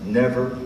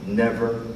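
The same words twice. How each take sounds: The two takes are said the same way.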